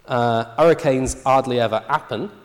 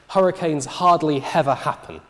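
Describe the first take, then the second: First: The initial H sounds are dropped entirely. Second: Strong H sounds are added, even before vowels. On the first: "the natural tendency here is to drop the H" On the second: "she overpronounces the H"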